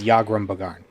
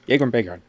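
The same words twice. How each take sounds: First: The name is said in a plain way. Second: The name is said in a bouncy way. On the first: The speaker calls it right. "he says Yagrum Bagarn in one of the voice files" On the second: The speaker calls it wrong. "It sounds more bouncy"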